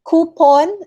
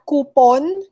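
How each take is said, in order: First: "Coupon" as KOO-pon, pitched up; correct pronunciation. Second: "coupon" drawn out slowly as koo-PON; slow "coupon" with weight on the second syllable; wrong pronunciation. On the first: Teacher modelling the right form, koo-pon. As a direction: lift "Coupon", koo first, then pon. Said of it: "It's coupon". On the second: Teacher showing the mistake, slow koo-pon. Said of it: "not coupon". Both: Shown as a demonstration.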